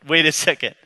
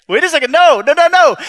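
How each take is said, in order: First: Said in the usual way. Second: Higher, louder alarmed no no no; panicked protest. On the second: Retold or imitated. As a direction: refuse in a rising panic. Jacob protests God's command.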